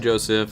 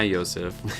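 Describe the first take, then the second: First: The name begins with a J sound. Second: The name begins with a Y sound. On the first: "Is it pronounced like that" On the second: "or is it Yosef?"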